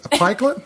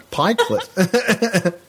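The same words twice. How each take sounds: First: Put-on pikelet tried in an American accent, pitched higher; a try at saying pikelet like an American that falls apart; questioning American-accent pikelet; failed American accent. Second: Pikelet drawn out very slowly in her own Australian way, with a laugh; slow laughing demo of Pikelet. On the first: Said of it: "No, I can't do an American accent". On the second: Shown as a demonstration. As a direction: show how pikelet is said back home. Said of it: "You just say a pikelet".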